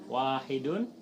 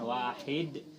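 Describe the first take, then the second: First: The word ends with a full '-un' ending. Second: The word ends cut short on '-d'. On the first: "Itu kalau dibaca lengkap ya" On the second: "dibacanya dimatikan"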